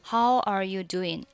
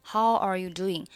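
The two takes are said the same way.

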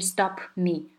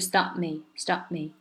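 First: Stop and me are said as separate words. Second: Stop runs straight into me without a break. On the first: The speaker calls it wrong. "它不是stop me" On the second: The speaker calls it right. "是stop me"

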